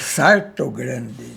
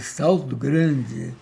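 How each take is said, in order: First: The first word is said with an R sound. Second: The first word is said with an L sound.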